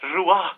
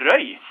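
First: The name is said with a French pronunciation. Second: The name is said with a Norwegian pronunciation. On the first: This mocks how the bearer would pronounce the name. "som du sikkert uttaler det" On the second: This is the plain local way of saying the name. "Du er jo bare røy"

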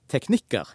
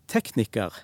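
First: The stress is on the second syllable. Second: The stress is on the first syllable. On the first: "teknikker, så ligger trykket på andre stavelse" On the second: "i tekniker, så ligger trykket på første stavelse"

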